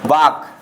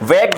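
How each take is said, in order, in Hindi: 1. स्वर लंबे 'ah' जैसा सुनाई देता है। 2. स्वर 'eh' जैसा सुनाई देता है। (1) "ना कि वाक, वाक नहीं बोलेंगे" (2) "इसे बोलेंगे हम वेग बोलेंगे"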